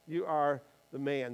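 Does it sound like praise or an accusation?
accusation. It sounds like a serious, solemn accusation.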